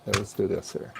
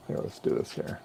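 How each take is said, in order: First: Said in the usual way. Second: Whispering to himself; whispered mutter. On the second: Real, not acted. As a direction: breathe it under your breath. Muttering to himself while working.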